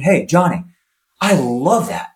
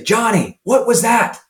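First: Positive coach. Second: Sharp, high reproach from a coach; scolding coach. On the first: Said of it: "a positive inflection". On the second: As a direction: call the kid out for missing. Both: Retold or imitated.

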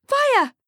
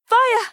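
First: Even higher panicked scream; screaming again. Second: High panicked scream of fire. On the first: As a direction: shriek it once more, louder in pitch. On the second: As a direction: yell it high and loud in panic. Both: A narrator's reading. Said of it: "starts screaming".

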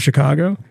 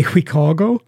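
First: Said in the usual way. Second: "Chicago" said as "Hwicago"; Swedish pronunciation. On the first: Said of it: "instead of Chicago". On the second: Retold or imitated. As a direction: Swedish CH, "hwi" opening "Chicago". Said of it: "the C H sound is very funny".

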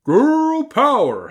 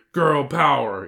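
First: Very high, loud, drawn-out howl; howling wolf. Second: Loud yell, moderately raised; yelled rallying cry. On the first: Wolf joins the girls' battle cry, howling. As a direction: howl the words out long. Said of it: "howled the wolf". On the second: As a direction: yell the slogan, short and punchy. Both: A narrator's reading.

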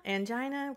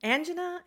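First: ANGINA as an-JY-nuh, questioning; long-i angina. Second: ANGINA as AN-juh-nuh, high questioning rise; first-syllable angina. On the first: Librarian offers co-host the other option, Angina as an-JY-nuh. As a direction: say Angina with stressed middle syllable, an-JY-nuh. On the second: Librarian asks co-host which is right, Angina as AN-juh-nuh. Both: Shown as a demonstration. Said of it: "Which one is it?".

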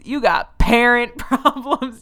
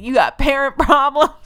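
First: Higher, slow mock frontman with a laugh breaking in. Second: Much higher and louder mock yell, laugh inside, rising end. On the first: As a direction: drag out parent, laughing at him. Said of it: "he's like". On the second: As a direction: shout it up like a cheesy frontman, cracking up. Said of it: "he was like".

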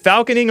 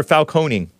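First: "Falconing" stressed on the first syllable; first pronunciation option. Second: "Falconing" with a long o in the middle; second pronunciation option. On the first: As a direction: say "Falconing" as FAL-kuh-ning. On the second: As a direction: say "Falconing" as fal-KOH-ning. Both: Shown as a demonstration. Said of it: "Is it Falconing or Falconing?".

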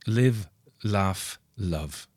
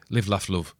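First: Slow, separated LIVE, LAUGH, LOVE; poster slogan. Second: Said in the usual way. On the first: Acted. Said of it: "as that famous poster has". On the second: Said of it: "as we would say".

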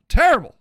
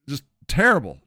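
First: "Terrible" blurted higher and louder; a loud mocking "Terrible". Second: Said in the usual way. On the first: Shown as a demonstration. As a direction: bark out "Terrible" in mock outrage. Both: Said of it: "repeats Terrible".

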